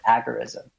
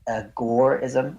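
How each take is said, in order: First: The stress is on the first syllable. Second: The stress is on the second syllable. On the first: "he would occasionally pronounce it agorism" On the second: "kind of a focus on the gore section"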